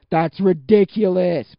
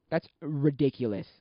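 First: Very loud, slow, raised pitch; incredulous outburst. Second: Said in the usual way. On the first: Real, not acted. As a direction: belt out each word in disbelief. Emphatic repeat, amazed at rates.

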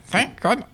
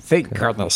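First: Much higher squeaky bird voice. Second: Said in the usual way. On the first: Shown as a demonstration. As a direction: try out a high parrot voice. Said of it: "Yeah, that's pretty good". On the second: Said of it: "What am I gonna do?".

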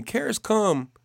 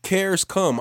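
First: "Cares come" repeated much higher; repeated for emphasis. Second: Said in the usual way. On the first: Shown as a demonstration. Preacher repeating "Cares come" to the congregation, pitched up. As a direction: lift "Cares" up high the second time. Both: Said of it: "I'm gonna say that again".

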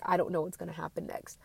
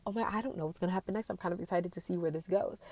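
First: Quietly fretting, gripping tight; tense worry about what's next; anxious. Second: Quick, eager and giddy; breathless thrill of not knowing; excited. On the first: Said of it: "I start clenching those handles 'cause I'm like". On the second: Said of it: "in excited anticipation". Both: Retold or imitated.

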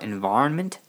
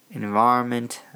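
First: "environment" with a rising, unsure tune; questioning. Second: "Environment" as a statement, no questioning rise; settled confirmation. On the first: Recalling what the first podcast was about, questioning. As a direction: ask yourself "environment", voice lifting at the end. Searching memory for the topic. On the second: Recalling the first podcast's topic, "Environment" said as confirmed. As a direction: confirm "Environment" to yourself, tune no longer lifting. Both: Real, not acted.

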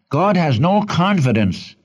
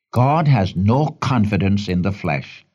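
First: Raised pitch, driving the point home; emphatic repeat. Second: Said in the usual way. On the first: Shown as a demonstration. Preacher repeats a key point to his congregation, emphatic. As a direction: repeat it higher, leaning on "no confidence". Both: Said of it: "Can I repeat that?".

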